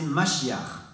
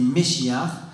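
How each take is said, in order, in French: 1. La première voyelle se prononce comme 'a'. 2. La première voyelle se prononce comme 'e'. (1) "en araméen, c'est Mashiach" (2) "En hébreu, ça se dit Meshiach"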